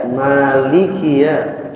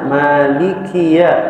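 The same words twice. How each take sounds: Both takes have the same delivery.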